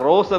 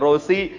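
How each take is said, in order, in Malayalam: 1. പേര് 's' ശബ്ദത്തിലാണ് അവസാനിക്കുന്നത്. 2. പേര് 'ee' ശബ്ദത്തിലാണ് അവസാനിക്കുന്നത്. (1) "റോസ് എന്നല്ല ഉച്ചരിക്കേണ്ടത്" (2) "റോസി എന്നാണ് പറയേണ്ടതെന്നും"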